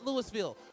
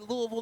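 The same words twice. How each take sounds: First: The name is pronounced the outsider way. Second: The name is pronounced the local way. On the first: The speaker calls it wrong. "not Louisville" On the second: The speaker calls it right. "I'm from Nashville, so I know to say Louisville"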